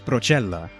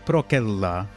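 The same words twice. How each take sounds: First: It is pronounced the Italian-like ecclesiastical way. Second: It is pronounced the classical Latin way. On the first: "but in ecclesiastical, it's procella" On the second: "in Old Latin, this would be procella"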